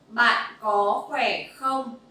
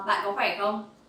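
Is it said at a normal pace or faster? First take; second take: normal; faster. First: It is said at a normal pace. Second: It is said faster.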